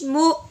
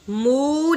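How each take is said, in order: First: The syllable is cut off with a sharp catch. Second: The syllable is drawn out softly without a catch. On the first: The speaker calls it right. "हमज़ा को झटका लगा के पढ़ना है" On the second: The speaker calls it wrong. "मु नहीं करना"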